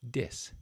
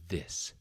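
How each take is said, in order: First: The word begins with a d sound. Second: The word begins with a th sound. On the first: The speaker calls it wrong. "that D sound is formed by placing the tip of your tongue at the roof of your mouth" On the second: The speaker calls it right. "so the correct sound again is this"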